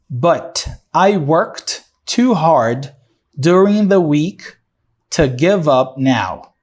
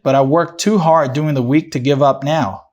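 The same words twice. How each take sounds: First: It is read slowly and carefully. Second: It is read at a natural connected pace.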